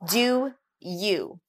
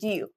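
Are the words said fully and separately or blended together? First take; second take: separately; blended. First: The words are said fully and separately. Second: The words are blended together in a reduced form.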